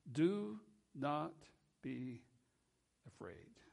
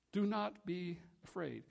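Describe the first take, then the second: First: Gentle comfort. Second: Said in the usual way. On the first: Acted. Quoting Christ's gentle comfort.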